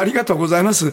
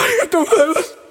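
First: It is said in a plain, non-tearful voice. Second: It is said in a tearful, crying voice.

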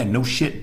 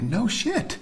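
First: It sounds mean and dismissive. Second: It sounds amazed and surprised. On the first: That is obvious already. "in a really mean way" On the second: The news is surprising. "it can mean the same thing as no kidding"

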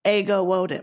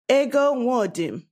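First: The name is said with an American accent. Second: The name is said with a Nigerian accent. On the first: "So the way they would is" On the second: "My name with a Nigerian accent would sound like"

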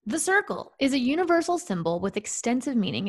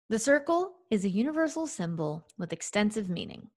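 First: It is read fast. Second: It is read more slowly.

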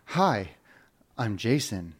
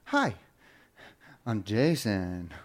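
First: The voice falls at the end like a statement. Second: The voice rises at the end like a question.

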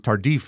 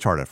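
First: The name is said with an affected foreign accent. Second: The name is said plainly, with no added accent. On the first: The speaker calls it wrong. "I tend to try to put an accent on it. I say Tardif. That's not right" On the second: The speaker calls it right. "It's just Tardif"

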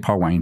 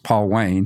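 First: The name is run together quickly as one word. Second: The name is said slowly as two separate words. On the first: This is how the family said it at home. "I say Paul Wayne real quick" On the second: This is the name as it really is. "but he's Paul Wayne"

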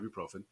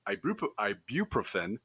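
First: The word is pronounced the casual, everyday way. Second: The word is pronounced the careful, technical way. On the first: The speaker sounds like an ordinary person. The speaker calls it right. "Otherwise, you just call it ibuprofen" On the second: The speaker sounds like a nerd. The speaker calls it wrong. "is technically called ibuprofen, but nobody says it that way"

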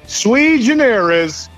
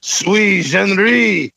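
First: It is said with a plain English accent. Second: It is said with a French accent.

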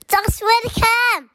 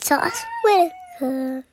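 First: The name is said loudly and confidently. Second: The name is said at normal, quieter volume.

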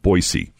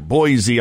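First: The middle consonant is an S sound. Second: The middle consonant is a Z sound. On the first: The speaker calls it right. "it's supposed to be with an S sound" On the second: The speaker calls it wrong. "There's a Z in there"

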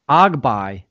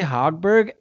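First: The name is said with its native pronunciation. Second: The name is said with an English pronunciation. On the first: The speaker calls it right. "I learned how to say this dude's name in whatever he is, Swedish or Finnish" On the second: The speaker calls it wrong. "I'm saying it wrong"

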